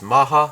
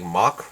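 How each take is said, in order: First: The name is said the Japanese way. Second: The name is said the English way. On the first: "the Japanese series, or the Korean pronunciation, or Japanese pronunciation, they go with Maha" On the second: "in the English it's supposed to be, the correct pronunciation is supposed to be like Mach"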